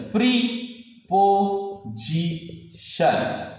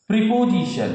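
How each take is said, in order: First: preposition very slowly as প্রি-পো-জি-শন; syllable by syllable. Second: Said in the usual way. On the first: Shown as a demonstration. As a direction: pause after each syllable of preposition. (ভেঙে ভেঙে, খুব ধীরে উচ্চারণ) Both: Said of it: "syllable ভেঙে ভেঙে বলতে হবে".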